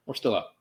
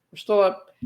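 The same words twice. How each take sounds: First: Said in the usual way. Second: Much higher-pitched insistence; high, strained-optimist reassurance; anxious self-reassurance. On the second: Acted. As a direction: pitch jumps up, trying to convince yourself. Nervous self-reassurance after conceding.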